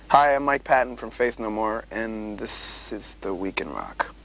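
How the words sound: It is said in a flat, boring way.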